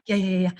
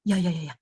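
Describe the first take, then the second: First: Quick ya ya ya, lightly acted impatience; mock hurried yes-yes. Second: Low, rushed ya ya ya, a hint of a bored listener; mock hurried yes-yes. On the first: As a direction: pretend you want them to finish. Same listener imitated again. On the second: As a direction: brush the speaker off with quick yeses. Imitating an impatient nodding listener.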